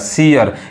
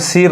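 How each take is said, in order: First: The word is said as two syllables. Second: The word is said as one syllable. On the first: The speaker calls it right. "यानी ये सी से बना है" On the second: The speaker calls it wrong. "सीर नहीं पढ़ेंगे, क्या हो जाएगा, गलत हो जाएगा"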